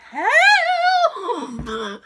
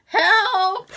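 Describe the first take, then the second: First: Long drawn-out, high, loud wail; comically desperate, drawn-out call; hammed-up cry for help. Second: Short, high, louder call; brief comic yelp, pitched up; acted cry for help. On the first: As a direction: stretch the mock plea out, breaking into laughter. Acts out second, bigger call. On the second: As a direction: call out for help in a mock plea. Acts out calling for help.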